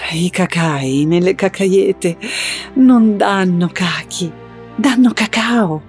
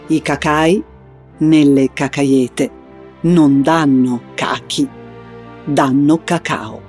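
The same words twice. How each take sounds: First: It is said in a tender, romantic tone. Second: It is said in a grave, solemn tone.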